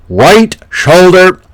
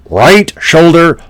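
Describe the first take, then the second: No difference in how they are said.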